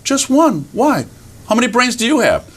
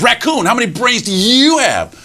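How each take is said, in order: First: High, curious little animal voice; innocent raccoon. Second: High, swooping challenge on YOU; boastful fox. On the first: Raccoon answers the boasting fox, innocently curious. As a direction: answer simply, then ask back high. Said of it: "And raccoon looks up". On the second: Fox challenges raccoon about brains, boastful. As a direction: call out raccoon, then quiz him grandly. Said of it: "and he says". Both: Acted.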